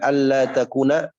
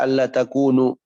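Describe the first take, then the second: First: The verb ends with an 'a' vowel. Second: The verb ends with a 'u' vowel. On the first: The particle governs the verb in the subjunctive. "Bisa dibaca alla takuna" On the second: The particle does not govern the verb. "bisa dibaca alla takunu"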